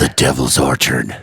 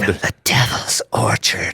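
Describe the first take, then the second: First: Dropped far lower, solemn repeat; deep doom voice; ominous low echo. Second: Slow, low, hushed echo of the name; eerie breathy echo; spooky whisper. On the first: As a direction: intone it like doom. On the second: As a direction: whisper it like a ghost story. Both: Acted. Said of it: "Direct from the Devil's Orchard".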